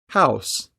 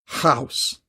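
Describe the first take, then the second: First: The h has very light, soft breathy friction. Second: The h has strong, scraping friction at the back. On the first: The speaker calls it right. "the h is created with the smallest amount of friction possible" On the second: The speaker calls it wrong. "this makes the consonant too harsh"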